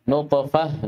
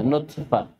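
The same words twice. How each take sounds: First: Heavy, bouncing T in نطفة; emphatic ṭā'. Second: Thin, front T where نطفة is written; light tā'. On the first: Teacher leads class reading together, emphatic T. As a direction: say نطفة with a backed, dark T. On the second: Teacher leads class reading together, light T. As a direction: say نطفة with plain dental T in place of ط. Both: Shown as a demonstration. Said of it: "فرقوا بين الطاء والتاء".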